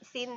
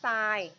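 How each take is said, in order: First: It is said with a short vowel, like 'sin'. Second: It is said with a long vowel, like 'sine'. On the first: The speaker calls it wrong. "ไม่ได้อ่านว่า" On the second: The speaker calls it right. "อ่านว่า ... เพราะว่าจริงๆแล้วชื่อเต็มมันคือมีตัว e ด้วย"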